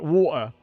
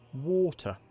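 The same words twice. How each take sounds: First: It is said in a northern English accent. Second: It is said with crisper, fuller enunciation. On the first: This is how the speaker talks now. "now I say it like water. And I'm a northerner" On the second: This is how the speaker used to talk. "I used to say water ... pronounce the words a little bit more"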